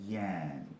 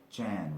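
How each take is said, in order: First: The name begins with a Y sound. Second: The name begins with a J sound. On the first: This is the Spanish way of saying it. "in like um, Spanish, they call it Yan" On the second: This is the English way of saying it. "In English, you you um, pronounce this Jan"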